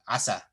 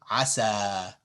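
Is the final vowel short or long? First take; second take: short; long. First: The final vowel is short and clipped. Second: The final vowel is held for two counts. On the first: The speaker calls it wrong. "here you wouldn't say asa" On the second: The speaker calls it right. "it lengthens the fatha two counts"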